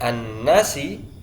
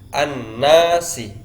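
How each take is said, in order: First: The syllables na and si are equally long. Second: The syllable na is twice as long as si. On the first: The speaker calls it wrong. "Kalau nasi itu na dengan si panjangnya sama" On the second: The speaker calls it right. "Antara na dengan si harus lebih panjang na dua kali lipat"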